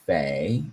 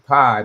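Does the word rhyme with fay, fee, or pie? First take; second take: fay; pie. First: The vowel sounds like the one in fay. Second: The vowel sounds like the one in pie. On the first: This is an uncertain alternative. "Maybe it's fay" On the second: This is the speaker's habitual pronunciation. "I would always say pi"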